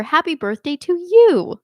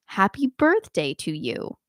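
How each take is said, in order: First: Happy birthday to you said higher and louder, falling on you; emphatic. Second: Said in the usual way. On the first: Shown as a demonstration. Teacher shows a stronger emphasis, higher and louder. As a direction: belt out the you with a bright push. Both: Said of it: "think about how you say the phrase".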